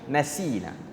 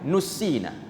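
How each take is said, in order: First: The first vowel is an 'a' sound. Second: The first vowel is a short 'u' sound. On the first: We forgot. The speaker calls it wrong. "tapi ada sebahagian baca nasina" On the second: We were made to forget. The speaker calls it right. "Yang betulnya ialah nussina"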